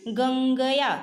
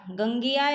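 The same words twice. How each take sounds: First: "गंगया" sounded out in parts, nasal ŋ held; nasal pronunciation demo. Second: Said in the usual way. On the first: Shown as a demonstration. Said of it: "जैसे आप देखिए". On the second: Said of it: "आपने लिखा".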